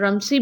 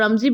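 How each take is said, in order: First: The middle consonant is an s sound. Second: The middle consonant is a z sound. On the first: "and रमसी भी कर सकते हैं" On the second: "इसको रमजी भी आप pronounce कर सकते हैं"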